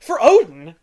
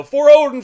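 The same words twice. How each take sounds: First: Raised, louder questioning of the catchphrase; incredulous echo. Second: High, loud mock battle cry; Thor. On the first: Retold or imitated. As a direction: throw the battle cry back as a question. Challenging the catchphrase with mock scorn. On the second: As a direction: call it out like a warrior's catchphrase. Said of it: "'Cause he says, like, you know".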